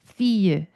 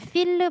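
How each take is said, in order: First: The word ends without any L sound. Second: The word ends with a clear L sound. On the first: The speaker calls it right. "fake L이기 때문에 fille" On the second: The speaker calls it wrong. "이때 feel 발음하지 않습니다"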